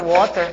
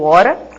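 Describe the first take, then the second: First: It is said with a British accent. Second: It is said with an American accent. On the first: "faz a sua pronúncia britânica" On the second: "ou americana"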